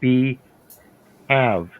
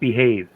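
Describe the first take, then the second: First: It is said as two separate words. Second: It is said as one joined word. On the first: The speaker calls it right. "If you separate the two words, it's be have" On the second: The speaker calls it wrong. "That is not the proper pronunciation"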